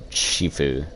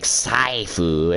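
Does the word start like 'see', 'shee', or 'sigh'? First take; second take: shee; sigh. First: It starts with a sh sound and ee. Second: It starts with s and an eye vowel. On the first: "or Shifu" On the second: "there's no A I in there"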